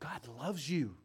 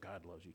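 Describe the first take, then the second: First: It is said earnestly and sincerely. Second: It is said casually and flippantly.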